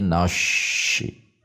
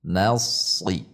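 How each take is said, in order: First: The s is turned into an sh sound. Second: The s is made with a tensed tongue root. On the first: The speaker calls it wrong. "Menjadi shin besar" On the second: The speaker calls it right. "tegangkan pangkal lidah, bukan dengan membulatkan bibir"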